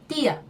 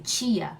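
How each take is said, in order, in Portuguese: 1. O t continua sendo um t simples e nítido. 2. O t soa como 'ch' antes do i. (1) "a gente diz como lá em Pernambuco de novo" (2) "o que fazemos na maioria dos estados brasileiros, que é por um H"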